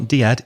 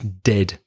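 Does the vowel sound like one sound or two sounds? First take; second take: two sounds; one sound. First: The vowel is split into two sounds. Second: The vowel is a single short sound. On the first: The speaker calls it wrong. "It's not diad" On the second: The speaker calls it right. "It's one vowel sound"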